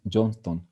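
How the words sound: The name is said with English pronunciation. "we use the English pronunciation"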